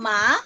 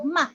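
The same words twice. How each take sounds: First: The pitch rises through the syllable. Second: The syllable is light, short and unstressed. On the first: "sa akyat lang" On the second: "light lang and then dili kay siya kusog"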